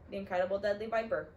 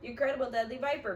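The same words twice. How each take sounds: First: Said in the usual way. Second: Higher, louder, in a panicked echo; the banker repeating the snake's name, higher and louder; repeated by Mister Poe. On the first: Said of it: "Klaus answered promptly". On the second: A narrator's reading. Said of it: "Mister Poe repeated".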